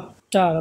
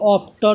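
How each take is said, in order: First: The vowel is an open, unrounded 'ah'. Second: The vowel is a rounded 'aw'. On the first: The speaker calls it right. "সরি আর মতন উচ্চারণ হবে" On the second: The speaker calls it wrong. "আমরা কিন্তু অফটার বলতেছি না"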